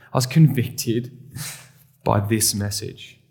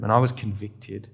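First: Slowed, weighty confession; slow emphatic repeat. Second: Said in the usual way. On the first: Shown as a demonstration. Pastor repeating his confession to the congregation, slow and weighty. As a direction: lean on each word, slowly.

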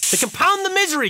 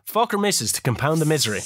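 First: Hammed-up lament over "misery"; mock dramatic. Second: Said in the usual way. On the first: Shown as a demonstration.

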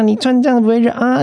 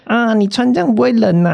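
First: High mock doorman, 这 leaned on, rising at the end; nosy doorman. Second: High mock doorman, 这 leaned on, falling at the end; nosy doorman. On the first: Mimicking the building manager fussing over clothes, high and questioning. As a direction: pitch it up and ask 你穿这样不会热啊 like a question. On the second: Mimicking the building manager fussing over clothes, high and chirpy. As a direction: pitch it up and fuss over 你穿这样不会冷啊. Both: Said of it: "他每次看到你都要寒暄个几句".

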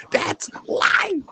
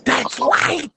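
First: Hushed rapper voice imitation; unvoiced [name] impression. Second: Said in the usual way. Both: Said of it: "In my [name] voice".

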